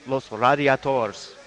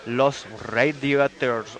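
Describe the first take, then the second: First: "Radiators" slowly as rah-dee-ah-TORS; "Radiators" drawn out in Spanish style; Spanish pronunciation. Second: "Radiators" drawn out slowly with an English RAY; "Radiators" slow, first vowel as in "ray"; English-leaning pronunciation. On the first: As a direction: give "Radiators" open Spanish a's and a tapped r. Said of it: "or Los Radiators". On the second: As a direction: say "Radiators" slowly as RAY-dee-ters after "Los". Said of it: "I think it's called Los Radiators". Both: Shown as a demonstration.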